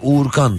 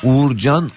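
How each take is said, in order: First: The last syllable starts with a k sound. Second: The last syllable starts with a j sound. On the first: This is the name as said in America. "Amerika'da Uğurkan" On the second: This is the name as said in Turkey. "Türkiye'de Uğurcan"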